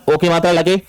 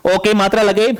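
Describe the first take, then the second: First: Said in the usual way. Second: ओ की मात्रा लगे repeated with extra weight on ओ; emphatic repeat. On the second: Shown as a demonstration. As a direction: stress ओ in ओ की मात्रा लगे to drive the rule home. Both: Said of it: "छोटा ओ की मात्रा लग रही है".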